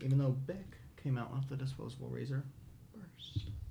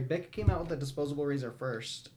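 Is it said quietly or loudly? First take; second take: quietly; loudly. First: It is said at a quiet, normal volume. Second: It is said loudly.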